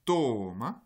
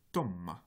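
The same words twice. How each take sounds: First: Toma with a long o: tooma; wrong pronunciation demo. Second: Toma with a held m: to-mma; long consonant demo. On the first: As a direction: stretch the vowel in toma. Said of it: "vous n'avez pas toma". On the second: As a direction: hold the m in toma. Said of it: "avec un allongement de la consonne qui suit". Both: Shown as a demonstration.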